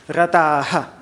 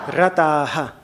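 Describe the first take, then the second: No difference in how they are said.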